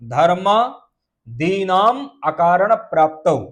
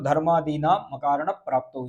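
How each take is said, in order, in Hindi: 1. शब्द छोटे-छोटे विराम के साथ अलग-अलग पढ़े जाते हैं। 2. शब्द बिना विराम के एक साथ पढ़े जाते हैं। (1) "इस प्रकार से इसको अलग अलग करके पढ़ना है" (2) "एक साथ पढ़ोगे तो"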